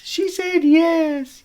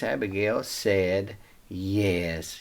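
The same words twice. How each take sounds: First: High, slow, thrilled cry of yes; delighted repeat. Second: Said in the usual way. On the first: Shown as a demonstration. Teller cheering that Abigail agreed to marry David, squealing with delight. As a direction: stretch it out with glee, much higher.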